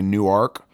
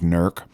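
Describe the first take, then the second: First: The word is said with two syllables. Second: The word is squeezed into one syllable. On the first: The speaker is not from Newark, Ohio. "if you're not from here, you might say Newark" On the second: The speaker lives in Newark, Ohio. "you get that down to one syllable, it becomes Newark"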